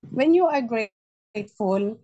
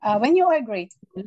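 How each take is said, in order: First: Slow, drawn out "when you are grateful" with a rising end; slow emphatic repeat. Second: Said in the usual way. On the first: Shown as a demonstration. Speaker to the group, repeating the key phrase slowly. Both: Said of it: "repeats the phrase slower".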